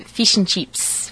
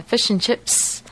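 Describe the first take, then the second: First: Fish and chips with a tense ee-like i; Australian fish and chips. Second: Fish and chips with the short central Kiwi i; New Zealand fish and chips. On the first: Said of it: "for an Australian". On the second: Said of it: "is a New Zealand way of saying it". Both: Shown as a demonstration.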